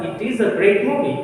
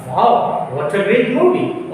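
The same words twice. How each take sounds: First: Said in the usual way. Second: A delighted wow on the movie; excited exclamation. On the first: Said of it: "उसी sentence को जो आपने अभी बोला था". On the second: Shown as a demonstration. Teacher telling friends about a film, excited. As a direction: sound thrilled about the movie. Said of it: "इसको आप बोलेंगे आप".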